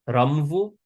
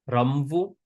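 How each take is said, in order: The two takes are said the same way.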